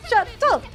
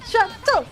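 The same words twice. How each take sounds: The two takes are said the same way.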